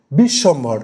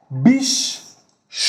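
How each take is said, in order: First: Said in the usual way. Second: "Bishwambhar" very slow, split bish, shom, bhor; syllable by syllable. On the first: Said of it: "উদাহরণ আমি নিয়েছি". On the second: Shown as a demonstration. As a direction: pull "Bishwambhar" apart with long pauses. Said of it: "এটাকে যদি আমি দল হিসেবে কল্পনা করি". ("বিশ্বম্ভর" তিন দলে ভেঙে, খুব ধীরে)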